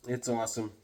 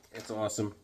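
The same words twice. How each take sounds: The two takes are said the same way.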